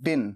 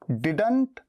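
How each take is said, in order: First: The final t sound is dropped. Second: The final t sound is pronounced.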